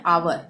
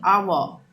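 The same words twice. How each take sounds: First: "आवर" with the final r sounded; Indian pronunciation. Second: "आवर" said "aa-wuh", no r; British pronunciation. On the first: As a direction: close "आवर" on a clear r. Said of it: "पर ये गलत है". ("आवर" में आखिरी र बोलें) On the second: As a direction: drop the last r of "आवर". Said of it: "इसको हम बोलेंगे आवर". ("आवर" को "आवअ" बोलें) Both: Shown as a demonstration.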